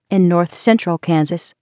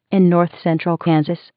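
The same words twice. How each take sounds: The two takes are said the same way.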